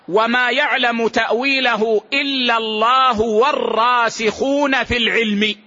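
There is a pause right after al-ilm. Those firmly grounded in knowledge also know its meaning. "وبعض السلف يقرأها هكذا ... ثم وقف"

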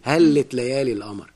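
It is said in colloquial Egyptian Arabic pronunciation. "بتقولها بالعامية"

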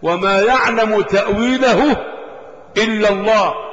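The phrase stops with a full pause after Allah. Only God knows its interpretation. "مدرسة تلتزم بالوقف على لفظ الدلالة"

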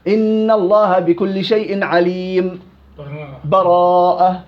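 A brief pause comes before the last word. "والوجه الثالث اللي دائما ننسى اللي هو السكت"

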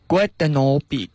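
It is said in Swiss German dialect pronunciation. "土德语说的话就是Guten Abend"

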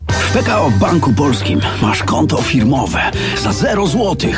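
It is delivered in a showy, theatrical manner. "mniej aktora, więcej przedsiębiorcy"

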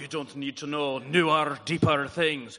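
It is said in a Scottish accent. "he said it in his wicked cool Scottish accent. So I was like"

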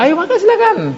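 The invitation sounds warm and cheerful. The guest feels welcome and glad. The speaker calls it right. "Mestinya dengan senyum, dengan wajah yang ceria"

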